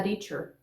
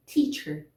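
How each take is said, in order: First: "teacher" with the first T as a tap, like "reacher"; tapped first sound in "teacher"; wrongly flapped teacher. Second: "Teacher" with a firm opening T; crisp unflapped T starting "Teacher"; correct initial T. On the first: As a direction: demo the mistake, weakening the opening T of "teacher". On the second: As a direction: say "Teacher" lower, with a true stop T. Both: Shown as a demonstration. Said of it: "Eu não poderia falar teacher".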